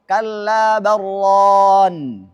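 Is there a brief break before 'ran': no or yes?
no. The words run together without any break. The speaker calls it right. "harus disambung"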